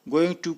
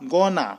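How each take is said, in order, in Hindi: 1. यह पूरा 'going to' बोला जाता है। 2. यह जुड़कर 'gonna' बन जाता है।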